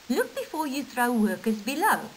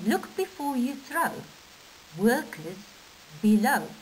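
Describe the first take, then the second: First: It runs on without a pause before 'workers below'. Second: There is a pause before 'workers below'. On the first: The workers below are the thing being thrown. "Without the punctuation, it means you're going to throw the workers" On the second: Be careful because there are workers below. "with punctuation, it means be careful"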